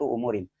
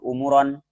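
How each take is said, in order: First: The word ends with the vowel i before n. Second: The word ends with the vowel o before n. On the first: The speaker calls it right. "dibaca kasroh" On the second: The speaker calls it wrong. "Tidak baca"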